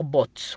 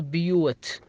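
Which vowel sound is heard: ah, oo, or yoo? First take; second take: oo; yoo. First: The vowel sounds like oo. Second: The vowel sounds like yoo. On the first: "ما تنطق بوت" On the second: "ولا تنطق بيوت"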